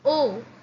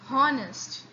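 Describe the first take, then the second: First: The word starts with a vowel sound. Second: The word starts with an h sound. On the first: The speaker calls it right. "we only pronounce O" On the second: The speaker calls it wrong. "We do not say honest"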